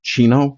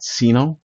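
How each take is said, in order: First: The word begins with a 'ch' sound. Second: The word begins with an 's' sound. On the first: "I do pronounce it chino" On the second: "not sino"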